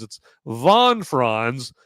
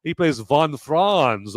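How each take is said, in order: First: "Von Franz" spelled out very slowly, each word stressed; slow correction. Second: Said in the usual way. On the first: Shown as a demonstration. Correcting a mix-up for viewers, stressing "Von Franz" slowly. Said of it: "No, not, not those guys".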